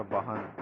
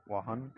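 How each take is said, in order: First: वाहन with a firm b, bahan; वाहन pronounced bahan with a clear b; b sound. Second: वाहन pronounced vaahan with a light v; v sound. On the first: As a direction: say वाहन starting with b, not v. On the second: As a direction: say वाहन starting with v, not b. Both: Shown as a demonstration. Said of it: "अंतर बतलाने के लिए".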